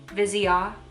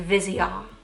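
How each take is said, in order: First: The name is said with French pronunciation. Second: The name is said with French pronunciation.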